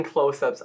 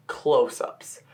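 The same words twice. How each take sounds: First: Said in the usual way. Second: "close-ups" set apart after a pause, drawn out; emphatic repeat. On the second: Real, not acted. Reviewer stressing how tight the shots are, emphatic "close-ups". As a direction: land weightily on "close-ups" as the real meaning.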